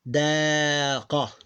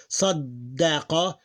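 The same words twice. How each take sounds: First: Sadaqa slowly with a short single d; slow sadaqa, no held d. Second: Saddaqa slowly with the dd held; slow Saddaqa, linger on the dd; doubled d. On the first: Teacher contrasts sadaqa with Saddaqa. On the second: Teacher contrasts Saddaqa with sadaqa. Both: Shown as a demonstration. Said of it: "doesn't sound like sadda".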